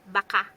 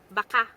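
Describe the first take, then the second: First: It is pronounced the way 'maybe' is said. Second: The same.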